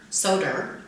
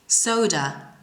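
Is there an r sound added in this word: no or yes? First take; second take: yes; no. First: An extra r sound is added in the word. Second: No extra r sound is added in the word. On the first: The speaker calls it wrong. "read the following words like this" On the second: The speaker calls it right. "don't add the raw sound when there's no R in the word"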